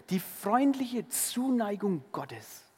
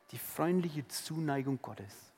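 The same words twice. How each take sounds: First: "freundliche" stressed, slowly drawn out; slow emphatic. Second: Much softer, lower repeat of "freundliche"; soft tender echo. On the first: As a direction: linger on each word of "Die freundliche Zuneigung Gottes". (langsam und betont, "freundliche" hervorgehoben) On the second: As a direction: say it again as a hushed echo. (leises, zärtliches Echo) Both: Shown as a demonstration.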